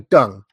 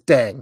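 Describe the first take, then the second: First: The vowel sounds like the u in but. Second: The vowel sounds like the e in bed. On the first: The speaker calls it wrong. "If they want people to say Deng, they need to translate it with a U" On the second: The speaker calls it right. "D-E-N-G says Deng"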